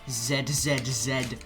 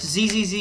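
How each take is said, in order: First: The letter is said as zed. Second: The letter is said as zee. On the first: The speaker calls it wrong. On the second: The speaker calls it right.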